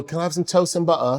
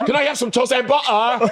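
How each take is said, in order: First: Light put-on British accent, softly said; mimicked British accent. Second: High, laughing mock British accent; mocking imitation. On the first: Shown as a demonstration. Asking what locals would say, mimicked British accent. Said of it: "I just start mimicking". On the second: Teasing friend who sounded like him, mocking British imitation. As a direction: mimic the accent way up high, amused. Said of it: "you sound like him".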